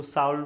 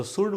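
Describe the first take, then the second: First: Should misread as शाउल, "shauld"; childhood misreading of should. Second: Should said as शुड, "shood"; short oo and no L in शुड; correct should, silent L. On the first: Retold or imitated. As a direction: say शाउल with an "ow" vowel. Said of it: "इसको शाउल पढ़ लेते थे". (should को ग़लत शाउल पढ़ें) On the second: Shown as a demonstration. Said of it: "इसको तो शुड बोलते हैं". (should का उच्चारण शुड, L चुप)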